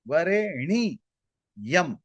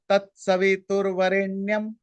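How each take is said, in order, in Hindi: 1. इस शब्द में चार अक्षर हैं, जो 'ni-yam' की तरह बँटते हैं। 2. इस शब्द में तीन अक्षर हैं, और यह 'nyam' पर खत्म होता है। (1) "इसके जगह एन आई वाई ए" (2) "इसका जो नॉर्मल उच्चारण"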